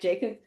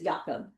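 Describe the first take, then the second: First: The name is said the English way. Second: The name is said the German way. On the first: The speaker calls it wrong. "it was not going to be something like Jacob" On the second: The speaker calls it right. "it's Jakob because he's German"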